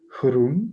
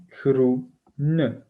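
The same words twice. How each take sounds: First: Groen as a single syllable; one syllable. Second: Groene split slowly into groe-ne; two syllables. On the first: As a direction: say "Groen" in one beat, no final e. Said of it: "il y a un syllabe". (« Groen » prononcé en une seule syllabe) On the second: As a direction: draw out "groene" in two separate beats, sounding the final e. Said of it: "On a deux syllabes". (« groene » découpé lentement en deux syllabes, groe-ne) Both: Shown as a demonstration.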